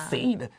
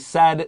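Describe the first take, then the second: First: The vowel is a long 'ay' sound. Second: The vowel is a short 'e' sound. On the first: The speaker calls it wrong. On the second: The speaker calls it right.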